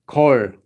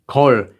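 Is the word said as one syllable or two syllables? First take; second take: one syllable; one syllable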